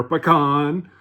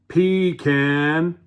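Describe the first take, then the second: First: Pecan said as "puh-KAHN"; louder, drawn-out "puh-KAHN" for pecan; pa-CON pronunciation. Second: Pecan said as "PEE-can", drawn out; slow "PEE-can" for pecan; PEE-can pronunciation. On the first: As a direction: stress the second syllable of pecan, rhyming with "on". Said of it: "but I do say pecan". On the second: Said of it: "whichever one you want to say". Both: Shown as a demonstration.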